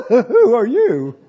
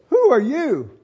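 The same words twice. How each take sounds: First: Startled, laughing. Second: Said in the usual way. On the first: Shown as a demonstration. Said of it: "I think he said". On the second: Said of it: "I don't think he said it that way".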